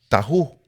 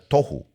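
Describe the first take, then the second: First: The first vowel sounds like 'a'. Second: The first vowel sounds like 'o'. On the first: The speaker calls it wrong. "algunas personas les dicen tahu" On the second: The speaker calls it right. "en hebreo se pronuncia tohu"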